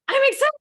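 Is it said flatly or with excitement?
with excitement. It is said with lively, expressive excitement.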